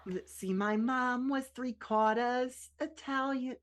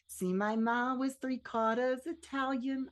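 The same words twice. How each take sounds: First: Slow, higher-pitched try at a Boston accent; not-quite-Boston accent, drawn out; attempted Boston accent. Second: Slow, raised-pitch amateur Boston accent; effortful imitation of a Boston accent, drawn out; second-try Boston accent. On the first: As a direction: have a rough go at Boston, dropping the r in quarters. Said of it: "just learn a Boston accent". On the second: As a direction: do your best Boston accent, stretching the line. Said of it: "I'm trying my best". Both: Shown as a demonstration.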